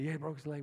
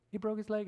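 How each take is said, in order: First: Matter-of-fact confirmation; plain insistent reply to the nurse; insistent father's answer. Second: Raised pitch, questioning echo; incredulous nurse. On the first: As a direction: confirm it firmly, without a question. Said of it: "And I said". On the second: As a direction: ask it back in higher-pitched disbelief. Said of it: "the nurse looked at me and goes". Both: Retold or imitated.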